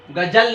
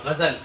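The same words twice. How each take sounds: First: गजल with a plain j, the wrong way; गजल said as ga-jal with an ordinary ज; wrong ghazal. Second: गजल with a soft z sound, ग़ज़ल; गजल said as gha-zal, the Urdu way; correct ghazal. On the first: Teacher showing students the wrong reading of गजल. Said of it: "जीम से नहीं होगा, जा से होगा". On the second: Teacher showing students the right reading of गजल. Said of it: "जा से होगा". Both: Shown as a demonstration.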